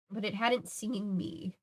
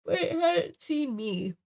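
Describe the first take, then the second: First: Slow and hushed; soft retake. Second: Higher, slow, eerie delivery; drawn out and spooky; eerie retake. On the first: Reader retries the line more softly. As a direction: let it fall away softly. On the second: Reader tries the line as a spooky hush. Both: Shown as a demonstration.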